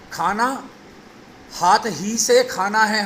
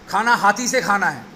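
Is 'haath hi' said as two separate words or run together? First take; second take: separate; run together. First: 'Haath' and 'hi' are kept apart as two words. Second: 'Haath' and 'hi' run together into one word. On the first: Food is to be eaten with the hand itself. The speaker calls it right. "हमें कहना है" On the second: Food is to be eaten with an elephant. The speaker calls it wrong. "तो वो elephant ढूंढने लगेगा"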